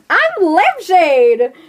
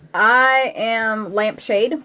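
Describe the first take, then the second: First: It is said with lively, excited energy. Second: It is said in a plain, flat way. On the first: The speaker calls it right. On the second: The speaker calls it wrong.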